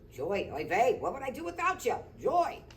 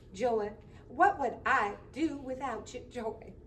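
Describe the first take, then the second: First: It is said in a Jewish accent. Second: It is said in a Southern accent.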